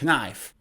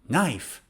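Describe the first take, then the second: First: The word starts with a K sound. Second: The word starts with no K sound. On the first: The speaker calls it wrong. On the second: The speaker calls it right. "K is shush"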